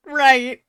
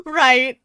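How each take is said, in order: First: Higher, louder "Right" cracking into laughter; laughing harder. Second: Laughing out a high loud "Right". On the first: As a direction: let the laugh take over the word. Repeats the word, still laughing. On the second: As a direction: blurt it through laughter. Laughing reaction to flirty line. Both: Real, not acted.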